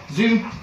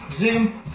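First: Said in the usual way. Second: Zoom called high and bright; high dog cue. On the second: Shown as a demonstration. Trainer showing the easier cue to the dog, high zoom call. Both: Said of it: "so I can go zoom".

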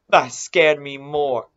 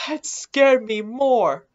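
First: Said in the usual way. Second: High, slow, drawn-out complaint of fright; pitched-up, emphatic slow protest; shaken insistence. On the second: Real, not acted. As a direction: repeat it higher and slower, still rattled.

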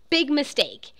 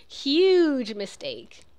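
First: Movie quote. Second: Slow drawn-out "Huge mistake"; movie quote. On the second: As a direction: stretch out "Huge mistake" smugly, like the film line. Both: Retold or imitated. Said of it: "It's from Pretty Woman".

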